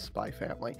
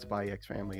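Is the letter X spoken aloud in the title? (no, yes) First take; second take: no; yes. First: The X is dropped between the words. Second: The letter X is spoken between the words. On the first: The speaker calls it right. "it's Spy Family" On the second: The speaker calls it wrong. "it's not Spy X Family"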